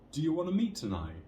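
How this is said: The pitch rises at the end. "with that intonation rising"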